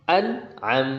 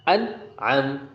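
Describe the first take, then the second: The two takes are said the same way.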